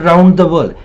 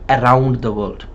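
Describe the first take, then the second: First: The vowels are said with a barely opened mouth. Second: The vowels are said with a wide open mouth. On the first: The speaker calls it wrong. "Not around the world" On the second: The speaker calls it right. "make sure that you're opening the mouth with the sounds of A and O"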